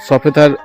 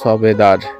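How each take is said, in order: First: The middle consonant is an 'f' sound. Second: The middle consonant is a 'b' sound. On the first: The speaker calls it right. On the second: The speaker calls it wrong.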